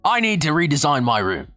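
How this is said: It is said in an Australian accent.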